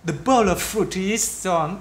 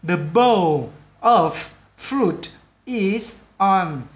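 First: The words are linked together in one smooth flow. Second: The words are said separately, not linked together. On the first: "khi chúng ta nói vào nhau một cách tiếng Anh một cách tự nhiên á, các bạn phải đọc là" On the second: "nếu chúng ta đọc rồi này"

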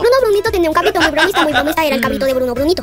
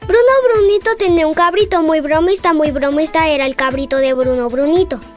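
First: It is said at the fastest pace. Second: It is said at a slower pace.

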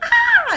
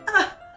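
First: It sounds strongly, dramatically surprised. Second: It sounds only mildly, vaguely surprised.

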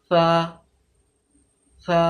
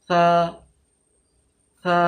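No difference in how they are said.

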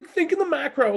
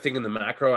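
First: It is said in a strained, imitated, intense voice. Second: It is said in the speaker's ordinary voice.

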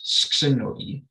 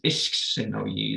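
First: The word starts directly without an initial vowel. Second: The word starts with an added initial vowel. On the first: "even if it wasn't there" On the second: "this I getting added"

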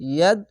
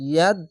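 No difference in how they are said.

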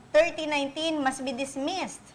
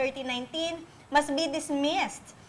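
The two takes are said the same way.

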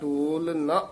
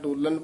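First: The two words are said separately. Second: The two words run together as one. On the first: The speaker calls it right. "ਇਹ ਵੱਖਰਾ ਹੀ ਪਾਠ ਕਰਨਾ ਹੈ" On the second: The speaker calls it wrong. "ਡੋਲਨ ਪਾਠ ਨਹੀਂ ਕਰਨਾ"

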